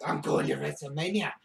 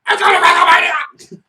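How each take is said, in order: First: Soft, low, deflated mutter; quiet. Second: Loud, high victory yell; shouting. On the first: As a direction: say it quietly to yourself. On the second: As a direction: yell it like you just won the title. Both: Pretend.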